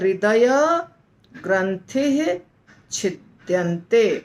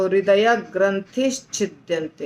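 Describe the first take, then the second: First: No 'sh' sound comes before 'chhidyante'. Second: An 'sh' sound links into 'chhidyante'. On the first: The words are separated. "श नहीं बोलेंगे उच्चारण में" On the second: The words are joined together. "साथ में जब था ना तो"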